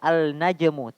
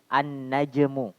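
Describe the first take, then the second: First: The article's L sound is clearly pronounced. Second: The L merges into a doubled N sound. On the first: The speaker calls it wrong. "bukan dibaca al najmu" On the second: The speaker calls it right. "tapi an najmu"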